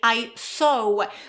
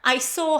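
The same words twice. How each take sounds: First: A w sound is heard after the vowel. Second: No w sound is heard after the vowel. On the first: The speaker calls it wrong. "they add this w at the end" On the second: The speaker calls it right. "we don't pronounce this w here"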